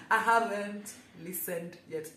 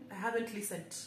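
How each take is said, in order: First: "listened" said slowly and loudly, each word separate; slow, loud, deliberate retry of "listened"; careful pronunciation. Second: Said in the usual way. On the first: Real, not acted. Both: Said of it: "English is my third language".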